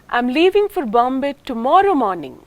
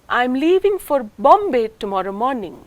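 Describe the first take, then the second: First: The main stress falls on the word tomorrow. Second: The main stress falls on the word Bombay. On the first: The leaving is not today but tomorrow. "That is not today. The nucleus is on the second syllable of tomorrow" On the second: The destination is no other city. "Not for any other city but Bombay"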